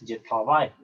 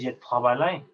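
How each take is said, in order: First: The final e is left silent. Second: The final e is pronounced aloud. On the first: The speaker calls it right. "tú dices je travaille" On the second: The speaker calls it wrong. "Tú no dices je travaille"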